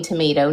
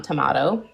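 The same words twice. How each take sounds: First: "tomato" with "may" in the middle; Canadian pronunciation. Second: "tomato" with "mah" in the middle; Australian pronunciation. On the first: Shown as a demonstration. Mother states the family's choice, Canadian "tomato" with an ay. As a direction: say "tomato" as tuh-MAY-toe. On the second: Retold or imitated. Mother rejects the local way, imitating "tomato" with an ah. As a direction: say "tomato" as tuh-MAH-toe. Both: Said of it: "not tomato".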